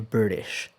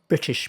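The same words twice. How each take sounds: First: The T between vowels sounds like a soft D. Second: The T between vowels is a clear T. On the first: "That's how American would say" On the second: "British people say British people"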